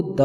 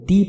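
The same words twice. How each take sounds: First: "द" with a short neutral vowel; weak-form "द", a short duh; THE read as "duh". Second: "दी" with a long ee vowel; strong-form "दी", ending in ee; THE read as "dee". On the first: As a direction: say "द" as duh, not dee. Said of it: "टीएचई consonant sound से पहले आए". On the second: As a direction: say "दी" as dee, not duh. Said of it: "जब टीएचई vowel sound से पहले आए". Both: Shown as a demonstration.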